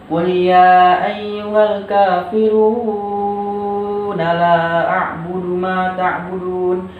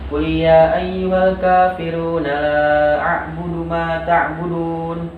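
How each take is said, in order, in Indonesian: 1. Vokal dalam kafirun dibaca panjang. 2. Vokal dalam kafirun dibaca pendek. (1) "jangan sampai kalian membacanya seperti ini ya" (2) "tidak dibaca panjang ya"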